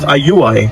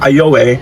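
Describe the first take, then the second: First: The middle vowel sounds like 'oo'. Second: The middle vowel sounds like 'oh'. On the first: The speaker calls it right. "but it should be pronounced ayuay" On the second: The speaker calls it wrong. "it's spelled A Y O W E Y"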